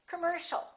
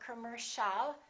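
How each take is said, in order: First: The first vowel is reduced. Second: The first vowel is fully pronounced. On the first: The speaker calls it right. "The O and the I A are both reduced" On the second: The speaker calls it wrong. "Don't say commercial"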